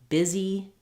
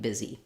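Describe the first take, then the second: First: The word is said slowly, every sound drawn out. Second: The word is said quickly, at natural speaking speed. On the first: "making sure that you're saying it slowly, saying all of the sounds" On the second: "working up to saying it naturally"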